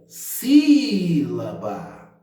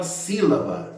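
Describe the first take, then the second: First: Sílaba called out with a very long SÍ; calling a word. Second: Said in the usual way. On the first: Shown as a demonstration. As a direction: stretch the first syllable of sílaba right out, then let it fall. (sílaba chamado, esticando bem o SÍ) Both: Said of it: "chamar a palavra aí".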